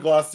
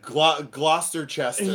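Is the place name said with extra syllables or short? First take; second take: short; extra syllables. First: The name is said short, with silent letters. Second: The name is said with extra added syllables. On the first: The speaker calls it right. "it's what you wrote down" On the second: The speaker calls it wrong. "what the hell is this guy talking about?"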